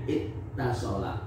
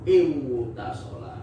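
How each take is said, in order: First: The w is replaced by a doubled t. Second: A w sound comes before the t. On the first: The speaker calls it right. "wawunya diganti ta" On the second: The speaker calls it wrong. "kalau tidak diganti, kita akan mengucapkan dengan seperti ini"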